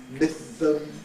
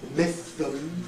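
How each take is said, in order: First: The s is lisped, made with a flat tongue. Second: The same.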